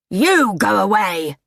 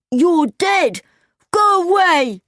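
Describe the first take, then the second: First: Angry retort in a character voice; Mister Nebbercracker, angry. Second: High-pitched, panicky yell; frightened cry. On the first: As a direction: throw the order back angrily. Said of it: "said Mister Nebbercracker angrily". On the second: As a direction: cry out to drive off a ghost. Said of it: "cried Chowder". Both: A narrator's reading.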